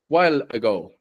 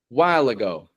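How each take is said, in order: First: The dark L is cut off before the next word. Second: A light L links smoothly into the next word. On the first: The speaker calls it wrong. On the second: The speaker calls it right.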